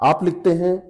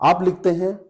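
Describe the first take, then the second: Both takes have the same delivery.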